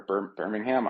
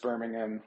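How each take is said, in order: First: Birmingham restarted, with a full HAM ending; hesitant second try. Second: Birmingham with a short, reduced ending; unsure pronunciation. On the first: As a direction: stumble on Bir-, then sound out Birmingham to a clear ham. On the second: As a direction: say Birmingham with an unstressed last syllable. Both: Real, not acted. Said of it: "I don't know how to say it".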